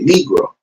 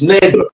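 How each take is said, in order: First: The word is said with an English pronunciation. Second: The word is said with a Spanish pronunciation. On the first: "When you just give it an English an English pronunciation, you're gonna say Negro" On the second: "But the true word is negro"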